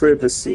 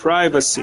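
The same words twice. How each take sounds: First: The first syllable sounds like 'priv'. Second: The first syllable sounds like 'pry'. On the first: The speaker calls it wrong. "You don't say privet" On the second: The speaker calls it right. "You say private"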